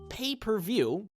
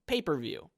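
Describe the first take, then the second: First: It is grouped as pay, per, view. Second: It is grouped as paper, then view. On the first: You pay each time you view it. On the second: Paper is involved instead of a TV.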